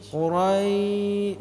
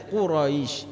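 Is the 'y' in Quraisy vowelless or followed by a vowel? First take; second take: vowelless; followed by vowel. First: The y has no vowel after it. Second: The y is followed by a vowel. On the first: The speaker calls it right. "Ya-nya su sukun. Ya mati" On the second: The speaker calls it wrong. "jangan dibaca dengan Quraisy"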